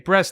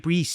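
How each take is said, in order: First: The vowel is said in a non-New Zealand way. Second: The vowel is said in a New Zealand way. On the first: "they don't say breast" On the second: "They say breast"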